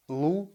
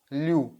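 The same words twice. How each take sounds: First: "Lu" with a hard, unpalatalized L. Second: "liu" with a palatalized L; soft L. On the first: Teacher models the next pair, hard L in "Lu". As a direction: say "Lu" with a pure u, no glide. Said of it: "pronounce hard L". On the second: Teacher models the next pair, soft L in "liu". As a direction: soften the L in "liu" into a yu. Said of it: "you will get soft L". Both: Shown as a demonstration.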